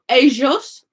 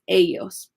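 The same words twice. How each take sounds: First: It is said in an Argentine accent. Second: It is said in a Mexican accent.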